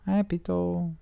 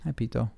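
First: Much higher sing-song "Hi, Pito"; high cooing hello to Pito; pet talk. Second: Said in the usual way. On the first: Real, not acted. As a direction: lift into a high coo for the cat. Greeting cat Pito.

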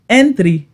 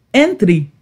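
The two takes are said the same way.

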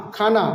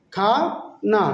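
First: Said in the usual way. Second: "খা", pause, "না"; long "খা", then a separate "না"; broken into syllables. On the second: Shown as a demonstration. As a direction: sound out "খানা" in two separate parts. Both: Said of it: "নেপালিতে বলবো খানা".

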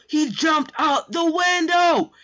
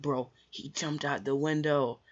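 First: Slow, loud, very high shriek; high-note scream. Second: Slow, drawn-out words without shouting; subdued, slow amazement; stunned disbelief. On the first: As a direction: scream it stretched out in total shock. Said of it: "when I hit those high notes". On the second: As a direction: stretch each word as if you can't believe it. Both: Retold or imitated.

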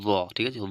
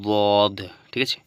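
First: Said in the usual way. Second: দদ stretched slowly and loudly from the tongue's side; slow dad demo. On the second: Shown as a demonstration. Teacher slowly re-modelling দদ for students, loud and drawn out. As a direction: draw দদ out, then check with the learners. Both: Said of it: "তো উচ্চারণটা কেমন হবে?".

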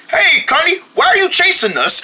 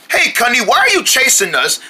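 First: Higher, voice cracking with worry; high anxious call. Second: Said in the usual way. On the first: Acted. Friend calls to Cunny the chaser, high and cracking. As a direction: call out up high, pleading and upset. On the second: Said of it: "I'm just gonna talk to him".

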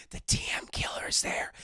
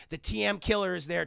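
First: Dramatic whisper, low; hushed reveal. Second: Said in the usual way. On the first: Retold or imitated. Telling chat the killer has turned up, hushed reveal.

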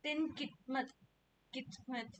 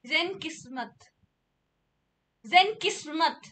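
First: Soft "Then Kitmat", T in the middle; "Kitmat" mispronounced. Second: "Zen Kismat", S in the middle; "Kismat" corrected. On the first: Trying out the wrong name, soft "Then Kitmat" with a T. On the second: Showing viewers the preferred name, "Zen Kismat" with a clear S. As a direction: say "Zen Kismat" with Z first, S before the M. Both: Shown as a demonstration. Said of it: "I'd say Kismat, okay?".

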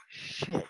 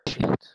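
First: Breathy whispered swear, hushed; whispered curse. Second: Blurted out loud; sudden loud swear; loud curse. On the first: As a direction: drop it to a whisper. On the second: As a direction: spit the curse out sharply. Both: Pretend. Mock outburst in comic monologue.

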